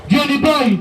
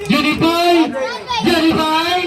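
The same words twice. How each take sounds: First: Said in the usual way. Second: Called higher across the court; calling out. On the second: Real, not acted. Announcer calling Johnny Boy across the court, higher call. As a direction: call him over the crowd.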